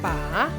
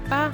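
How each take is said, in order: First: The syllable is said with the third tone. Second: The syllable is said with the neutral tone. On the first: It means to hold. "En troisième temps" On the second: It is a particle. "une particule avec un ton neutre"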